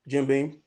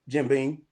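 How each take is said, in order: First: The second word ends sounding like an n. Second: The second word ends sounding like an n.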